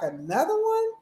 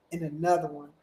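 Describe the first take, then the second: First: High, punchy shout-out; hype catchphrase. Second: Said in the usual way. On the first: Pretend. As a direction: hype it like a DJ tag. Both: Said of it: "You feel like".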